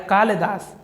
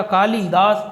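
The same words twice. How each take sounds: First: कालिदास shortened to "kaal-daas"; correct form. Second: कालिदास with a full i, "kaa-li-daas"; common form. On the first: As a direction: say कालिदास in two syllables. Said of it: "लेकिन शुद्ध रूप होता है". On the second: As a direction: say कालिदास in three syllables. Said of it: "इसी तरीके से लिखा जाएगा". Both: Shown as a demonstration.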